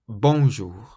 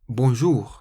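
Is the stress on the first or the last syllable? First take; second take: first; last. First: The stress is on the first syllable. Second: The stress is on the last syllable. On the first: The speaker calls it wrong. "rather than bonjour" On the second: The speaker calls it right. "you always stress the very last syllable of the word in French"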